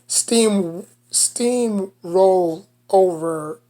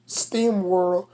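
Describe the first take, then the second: First: "steamroll" said very slowly, every sound spelled out, r clearly rolled; "Steam, steamroll over" carefully re-pronounced, syllable by syllable; careful correction. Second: "steamrolled" slurred in a New York accent, the r swallowed like "steem-wolled"; "steamrolled" mumbled with the r dropped, New York style. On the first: Shown as a demonstration. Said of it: "I can't even talk right". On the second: Real, not acted. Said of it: "my freaking New York accent, I can't even talk right".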